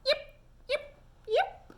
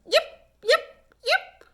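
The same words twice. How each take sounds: First: Very high but softer fox yips; a shy, gentle little fox yip. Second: Very high, loud fox calls; fox yipping. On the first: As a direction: fox thanking the duck softly. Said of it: "a valentine right back". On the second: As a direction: call like a fox pup. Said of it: "Little Fox called again". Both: A narrator's reading.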